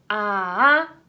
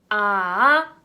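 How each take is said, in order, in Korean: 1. 중간 음에서 높은 음으로 올라가요. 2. 중간 음에서 높은 음으로 올라가요.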